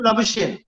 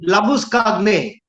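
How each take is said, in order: First: The name is said the Australian way. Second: The name is said the South African way. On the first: This is how people who cannot pronounce his name say it. The speaker calls it wrong. "they call him Labuschagne because they can't pronounce his name" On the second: This is how the player himself says his name. The speaker calls it right. "He's a South African and his name is Labuskagne"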